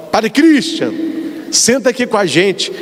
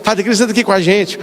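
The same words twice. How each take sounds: First: A lightly voiced friendly call to join the table; friendly invitation. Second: Fast, eager repeat of the invitation; rushed happy echo. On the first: A friend at the party invites the priest to sit, friendly call. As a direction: call him over warmly by name. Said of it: "fala assim que". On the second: Retold or imitated. The shy priest repeats the invitation he got, a fast eager echo. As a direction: echo it back quickly, relieved. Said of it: "Eu, eu fico assim".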